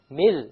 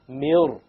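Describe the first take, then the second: First: The r sound is light and thin. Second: The r sound is heavy and full. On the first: The speaker calls it wrong. "generally it will be light" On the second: The speaker calls it right. "this ra will become heavy"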